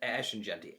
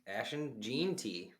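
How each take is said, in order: First: The surname is said in its usual form. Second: The surname is deliberately mangled as a joke. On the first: The speaker calls it right. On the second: The speaker calls it wrong.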